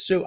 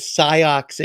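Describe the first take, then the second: First: "Sioux" said as one syllable, "soo"; corrected pronunciation. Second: "Sioux" said wrongly as "SIGH-ocks"; misread spelling. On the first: Mother correcting her son, "Sioux" as "soo". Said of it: "No, it says Sioux". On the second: Host retelling his embarrassing gaffe, "Sioux" as "sigh-ocks". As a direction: slowly stress "Sioux" as two beats, "SIGH-ocks". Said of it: "I said Sioux Indians". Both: Retold or imitated.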